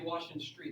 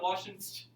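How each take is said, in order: First: The final word is said in full as 'street'. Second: The final word is clipped to a short 'st'. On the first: The speaker calls it right. "you say Washington Street" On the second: The speaker calls it wrong. "I think that's weird if people do that"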